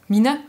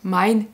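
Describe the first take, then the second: First: The vowel is a plain i sound. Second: The vowel is a gliding diphthong. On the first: This is the older form still kept in Alsatian. "le I est toujours là, on l'a pas diphthongé" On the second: This is the form used in the rest of the German-speaking area. "on va pas dire mein"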